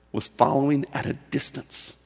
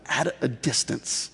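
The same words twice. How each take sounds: First: Said in the usual way. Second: "at a distance" drawn out slowly, each word weighted; slow stressed phrase. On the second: Shown as a demonstration. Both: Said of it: "Catch those last words".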